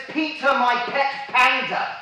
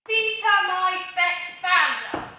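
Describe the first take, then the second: First: "Peter, my pet panda" with clear P's, slow and high; "Peter, my pet panda" pronounced with proper P sounds; corrected reading. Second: "Peter, my pet panda" with every P said as F; "Peter, my pet panda" misread as "Feter, my fet fanda"; misread P's. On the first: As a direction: read "Peter, my pet panda" deliberately, popping each P. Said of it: "That says". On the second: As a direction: read "Peter, my pet panda" slowly, turning each P into an F. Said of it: "Your P's look like F's". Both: Acted.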